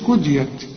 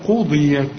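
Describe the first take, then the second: First: It starts with a plain k and light d. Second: It starts with a deep q and emphatic d. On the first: The speaker calls it wrong. "ما تقولش كديت" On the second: The speaker calls it right. "يا راجل دي قاف"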